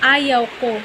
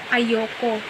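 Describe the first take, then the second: First: It is said as two separate words. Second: It is run together into one contracted word. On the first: The speaker calls it right. "ang salitang "ayaw ko"" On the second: The speaker calls it wrong. "ang karamihan ang pagbigkas nila nito"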